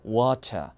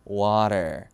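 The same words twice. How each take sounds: First: British accent, with a clear t and no r. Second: American accent, with a flapped t and an r. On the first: "이게 영국식 발음이고" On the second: "미국은 water 이게 되겠고요"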